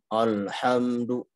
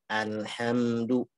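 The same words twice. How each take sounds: First: The opening vowel is thick, sounding like o. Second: The opening vowel is a thin, clear a. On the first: The speaker calls it wrong. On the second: The speaker calls it right.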